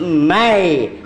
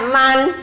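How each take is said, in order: First: The n is merged into a y sound. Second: The word ends with a clear n sound. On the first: This is how it is read before ya. "kemasukan huruf ya jadi mai" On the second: This is the original form of the word. "Emang asalnya man"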